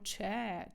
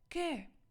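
First: The word starts with a ch sound. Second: The word starts with a k sound. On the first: The speaker calls it wrong. "ми дуже часто ось це читаємо че. Це не читається че" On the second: The speaker calls it right. "Три букви ЧАКЕ читається як ке"

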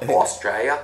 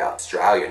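First: The word is said in full, every syllable. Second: The word is clipped, with syllables dropped. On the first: This is the standard full form. "not Australia" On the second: This is how locals casually say it. "It's Australia"

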